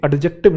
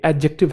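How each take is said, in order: First: "एडजेक्टिव" with a separate D before J; D pronounced. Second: "एडजेक्टिव" said as a-JEK-tiv; silent D. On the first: Teacher rejecting the mistake, "एडजेक्टिव" with audible D. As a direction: wrongly voice the silent D in "एडजेक्टिव". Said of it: "नहीं है ये". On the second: Teacher correcting students, "एडजेक्टिव" with silent D. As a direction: drop the D, go straight to J in "एडजेक्टिव". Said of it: "डी silent है". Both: Shown as a demonstration.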